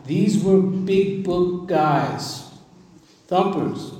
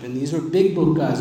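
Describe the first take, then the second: First: Each word drawn out slowly and higher; big book guys, stretched right out; slow and weighty. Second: Said in the usual way. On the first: Shown as a demonstration. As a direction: savor every word of it slowly. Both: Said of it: "I'm gonna say that one more time".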